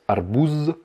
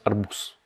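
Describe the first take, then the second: First: "arbouz" with a long buzzing z at the end; mistaken voiced ending. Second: "arbous" ending in a hissed s, no z; devoiced final consonant. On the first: Teacher shows the likely mistake, buzzing final z. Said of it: "on pourrait croire que ça se prononce arbouz". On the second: Teacher corrects the mistake, final s sound. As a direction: finish "arbous" on a voiceless s. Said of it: "mais non, ça se prononce arbous". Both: Shown as a demonstration.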